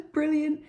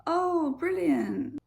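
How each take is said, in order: First: Mock-cheery "brilliant" said through a laugh; higher, giggly sarcasm; laughing sarcastic brilliant. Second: High falling "Oh, brilliant" with a dry sarcastic edge; fake-pleased sarcasm. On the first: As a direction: sound pleased, mean the opposite. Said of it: "A British person is like". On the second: Shown as a demonstration. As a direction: say "brilliant" like it's awful. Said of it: "It depends on the tone".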